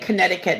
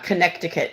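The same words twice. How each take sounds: First: A letter is left silent, not said as spelled. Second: Every letter is sounded as it is spelled. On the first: This is how locals say it. The speaker calls it right. "we say Connecticut" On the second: This is how it is spelled, not said. The speaker calls it wrong. "not Connecticut"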